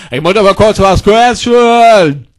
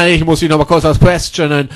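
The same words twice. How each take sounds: First: Slow, stretched-out demand; drawn-out insistence. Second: Said in the usual way. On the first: Acted. Repeats request, drawing it out. (gedehnt und nachdrücklich)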